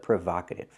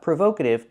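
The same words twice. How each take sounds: First: The first O is a short 'ah' sound. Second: The first O is a long 'oh' sound. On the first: The speaker calls it right. "but provocative" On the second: The speaker calls it wrong. "Not provocative"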